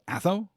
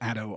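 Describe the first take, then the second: First: The middle consonant is a soft th sound. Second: The middle consonant is a plain d sound. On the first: It follows the rule for formal names. The speaker calls it wrong. "it is not Atho" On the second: It does not follow the rule for formal names. The speaker calls it right. "I'm going to go with Addo"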